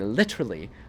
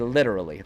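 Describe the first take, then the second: First: The middle consonant is a crisp T sound. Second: The middle consonant is a soft D sound. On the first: "I don't say literally" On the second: "I definitely use the D's"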